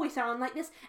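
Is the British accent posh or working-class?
working-class. It is spoken in a working-class Cockney accent. The speaker is poor. "If we're poor"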